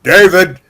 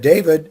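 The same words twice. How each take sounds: First: It is said in a stern, commanding tone. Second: It is said in a gentle, relaxed tone.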